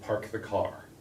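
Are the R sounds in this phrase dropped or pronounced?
pronounced. The R sounds are clearly pronounced. This is how Americans say it. "We say park the car"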